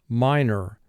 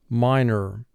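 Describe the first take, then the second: Both takes have the same delivery.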